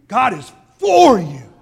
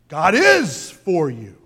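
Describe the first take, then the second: First: The stress falls on the word for. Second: The stress falls on the word is.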